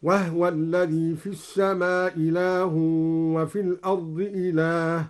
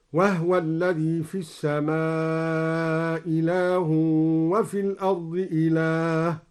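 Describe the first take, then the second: First: Said in the usual way. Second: Slow chanted tartil with وهو read with a silent ha as wahwa; recited with Duri reading. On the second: Shown as a demonstration. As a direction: intone it slowly, saying وهو as wahwa. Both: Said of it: "هكذا".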